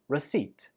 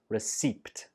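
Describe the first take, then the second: First: No P sound is pronounced before the T. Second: A P sound is pronounced before the final T. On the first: The speaker calls it right. "There is no p sound" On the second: The speaker calls it wrong. "so it's not receipt"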